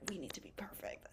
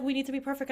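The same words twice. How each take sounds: First: Whispered, mocking the type A voice. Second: Said out loud and higher, half-mocking; louder take. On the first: Healthcare student voicing the type A urge, whispered. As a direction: hush it like a secret anxious thought. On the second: Student repeating the type A motto, higher and louder. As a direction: announce the perfectionist motto brightly. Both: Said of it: "we're a lot of type A".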